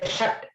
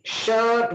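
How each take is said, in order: First: The vowel is a short 'uh' sound. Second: The vowel is a long 'er' sound. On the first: The speaker calls it wrong. "We never say" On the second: The speaker calls it right. "Shirt we say"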